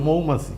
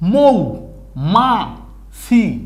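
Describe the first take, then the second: First: The syllables are said quickly as one word. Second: The syllables are said slowly with gaps between.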